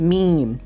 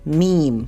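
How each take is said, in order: No difference in how they are said.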